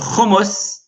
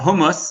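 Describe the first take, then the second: First: The word begins with a guttural throat sound. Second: The word begins with a plain soft h.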